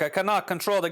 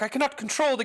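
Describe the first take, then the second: First: It is said in an African accent. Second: It is said without an African accent. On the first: The speaker calls it right. "This would be an African voice" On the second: The speaker calls it wrong. "I'm screwing up my voices here"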